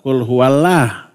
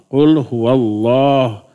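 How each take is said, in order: First: The L is light and thin, with a bright vowel. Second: The L is heavy and thick, with a dark vowel. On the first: The speaker calls it wrong. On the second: The speaker calls it right. "wajib tafhim"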